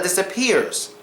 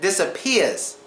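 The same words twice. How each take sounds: First: The R after the E sound is pronounced. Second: The R after the E sound is dropped. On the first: "instead of disappears" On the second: "I said disappears"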